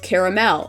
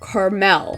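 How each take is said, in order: First: The word is said with three syllables. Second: The word is said with two syllables.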